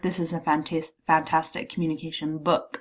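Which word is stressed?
book. The stress falls on the word book. The object itself is highlighted. "I'm putting the emphasis on the book"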